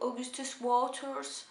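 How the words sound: The name is said with a heavy English accent. This is how the dubbed film says it. "c'était vraiment appuyé sur l'accent anglais"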